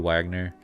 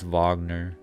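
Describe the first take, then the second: First: It is said the common English way. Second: It is said a different, non-English way. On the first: The speaker calls it wrong. "Keep wanting to say Wagner like Bobby Wagner" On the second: The speaker calls it right. "but it's Wagner"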